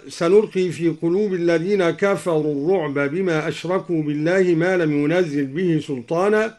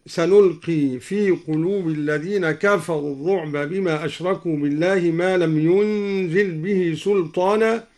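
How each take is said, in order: First: Said in the usual way. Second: ينزل said "yunzil", single z after n; lightened zay. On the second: Shown as a demonstration. Teacher shows al-Duri's light reading of ينزل, "yunzil". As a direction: say ينزل as "yun-zil", no doubled z. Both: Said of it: "قرأ الدوري بتخفيف ينزل".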